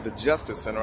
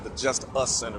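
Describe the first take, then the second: First: It is said as the single word justice. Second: It is said as two words, just us. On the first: The ordinary name of the building. "I didn't say the Justice Center" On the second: The place is made only for us. "I said the Just Us Center because this is actually made just for us"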